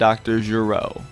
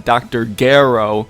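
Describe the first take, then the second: First: The name is said in the non-fan way. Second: The name is said the way fans say it.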